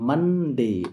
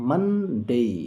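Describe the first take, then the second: First: The first vowel is an open 'uh' sound. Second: The same.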